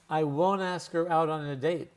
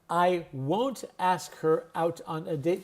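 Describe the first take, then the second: First: The T in 'won't' is dropped. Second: The T in 'won't' is clearly pronounced.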